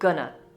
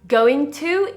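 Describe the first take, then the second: First: The words are squashed together and shortened. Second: Both words are said fully and separately. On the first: "in reduced form becomes gonna" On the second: "Going to in reduced form becomes"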